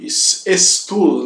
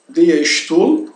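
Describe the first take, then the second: First: "Stuhl" wrongly begun with a hissed s, like "estool"; wrong plain-S version. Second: "der Stuhl" slow, said "dea shtool"; German SH for S. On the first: Teacher showing what not to say, wrong plain-S pronunciation. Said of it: "assim que nada de". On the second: Teacher warning about the S in chair, German sh pronunciation. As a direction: model "Stuhl" with sh before the t. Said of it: "não se pronuncia como uma S". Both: Shown as a demonstration.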